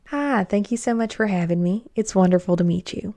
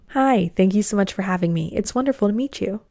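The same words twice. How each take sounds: First: It is spoken in a Southern American accent. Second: It is spoken in a General American accent. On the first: The speaker seems to have less education. "Here's person A" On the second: The speaker seems to have more education. "Did you say person B?"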